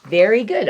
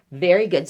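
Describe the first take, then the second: First: "good" hit hardest, falling off it; stress on good. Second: "very" hit hardest, "good" light; stress on very. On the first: Reader praising the kids, "good" stressed. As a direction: lean on "good" and let it fall. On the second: Reader praising the kids, "very" stressed. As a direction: lean on "very", then drop. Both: Shown as a demonstration. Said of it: "chanted response, stress varies".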